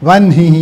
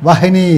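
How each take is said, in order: The two takes are said the same way.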